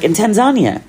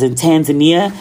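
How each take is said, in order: First: "Tanzania" as tan-ZAH-nya, higher; friend's "Tanzania", pitched up on ZAH; corrected pronunciation. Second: "Tanzania" as tan-zuh-NEE-uh; American-style "Tanzania", four syllables ending nee-uh; American mispronunciation. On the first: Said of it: "and she was like". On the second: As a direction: say "Tanzania" with a flat first A and stressed NEE. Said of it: "know I can't pronounce shit". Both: Retold or imitated.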